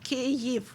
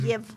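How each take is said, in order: First: The name has its Ukrainian pronunciation. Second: The name has its Russian pronunciation. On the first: This is the name as used in Ukrainian. "if you're speaking in Ukrainian language, it is Kyiv" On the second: This is the name as used in Russian. "that's how you name Ukrainian capital in Russian"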